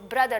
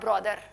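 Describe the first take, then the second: First: The first vowel is a short 'uh' sound. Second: The first vowel is an open 'aw' sound. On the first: The speaker calls it right. "ब्रदर not ब्रॉदर" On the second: The speaker calls it wrong. "So you don't pronounce it with ऑरेंज sound"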